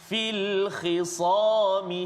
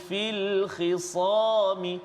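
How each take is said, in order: No difference in how they are said.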